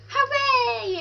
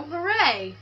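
First: Much higher mock-excited cheer; hooray pitched way up; hammed-up joyful hooray; big cheer. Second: A mild mock cheer; half-hearted hooray; lightly voiced celebration. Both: Celebrating controller working.

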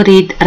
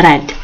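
First: Present-tense reed, not red; wrong reading. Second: Red said with a short e, like the colour; red, short vowel, said low and final; correct reading. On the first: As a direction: read said as reed, long ee, the wrong way. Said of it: "اللفظ مالته يختلف، كأنه دا أقول أحمر". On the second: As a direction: past tense red, rhyming with bed. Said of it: "red اللفظ، مو read". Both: Shown as a demonstration.

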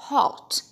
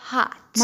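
First: "hot" with a rounded O; British HOT. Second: "hot" with an open ah; American HOT. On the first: Teacher showing British "hot", rounded-O pronunciation. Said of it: "بينطقوه O صميم". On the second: Teacher showing American "hot", open-vowel pronunciation. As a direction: say "hot" like "haht". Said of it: "في الأمريكان أكسنت بنقولها". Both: Shown as a demonstration.

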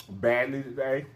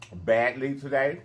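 Both takes have the same delivery.

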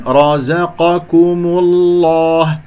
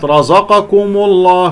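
First: Slow chanted رزقكم الله with thin ز, ك, م; heavy separated from light. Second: Slow, wrongly heavy رزقكم الله throughout; faulty all-heavy letters. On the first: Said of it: "هكذا، خلص المفخم من المرقق". (تخليص المفخم من المرقق في رزقكم الله) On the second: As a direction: thicken every letter of رزقكم الله, even ز, ك and م. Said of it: "كلها مفخمة". (تفخيم كل حروف رزقكم الله خطأً) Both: Shown as a demonstration.

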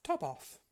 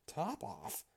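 First: Said in the usual way. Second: High, questioning echo of TOP OFF; surprised query. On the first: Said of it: "said the cat quite coolly". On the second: A narrator's reading. Mouse querying the cat's odd name, mildly surprised. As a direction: repeat it as a startled question. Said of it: "cried the mouse".

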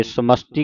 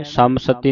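First: ਸਮਸਤੀ as "samasti", st together; joined reading. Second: ਸਮਸਤੀ broken as "saamsati"; mistaken reading. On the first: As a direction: say ਸਮਸਤੀ with s running into t. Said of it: "ਸਮਸਤੀ ਕਹਿਣਾ ਹੈ". (ਸਮਸਤੀ ਵਿੱਚ ਸੱਸਾ ਤੇ ਤੱਤਾ ਜੋੜ ਕੇ) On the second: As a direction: put a vowel between s and t in ਸਮਸਤੀ. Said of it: "ਸਮਸਤੀ ਨਹੀਂ ਬੋਲਣਾ". (ਸਮਸਤੀ ਦਾ ਸੱਸਾ ਤੇ ਤੱਤਾ ਵੱਖ ਕਰ ਕੇ) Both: Shown as a demonstration.

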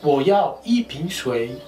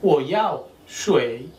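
First: Wo yao yi ping shui spoken slowly with yi stressed; careful slower full phrase; teacher model read. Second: Wo yao shui drawn out slowly; careful slow demo; slow model phrase. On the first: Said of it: "En un chino mejor sería". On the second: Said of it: "voy a comprar agua". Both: Shown as a demonstration.

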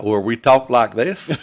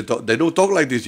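First: Slow, drawn-out Ohio accent, a touch of it. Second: Said in the usual way. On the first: Shown as a demonstration. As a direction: stretch the words like a Beaver, Ohio local.

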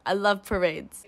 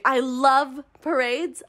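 First: Said in the usual way. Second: Slow, savoring. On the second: Shown as a demonstration. Reviewer gushing to viewers about parades, slow and savoring. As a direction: stretch out love, slow and drawn.

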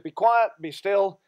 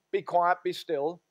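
First: Each word set down firmly; firm command. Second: Measured, calm command; slow command. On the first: Jesus silencing the storm, slow and firm. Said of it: "So he said". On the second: Jesus speaks to the storm, slow and calm. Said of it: "he says". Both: Retold or imitated.

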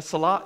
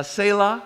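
First: "Salah" said as suh-LAH; alternative pronunciation. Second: "Selah" said as SAY-lah; first pronunciation. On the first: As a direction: say "Salah" with short first syllable, open LAH. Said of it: "or, uh". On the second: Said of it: "a Salah". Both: Shown as a demonstration.

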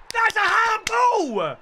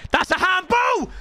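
First: Higher, slow stretched yell; mock-outraged wail; drawn-out handball cry. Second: Indignant shout; handball shout. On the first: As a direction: drag it out in disbelief. Repeats appeal, drawn out. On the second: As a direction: yell it at the referee. Appeal for handball in game. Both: Real, not acted.

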